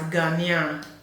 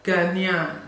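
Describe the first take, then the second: Both takes have the same delivery.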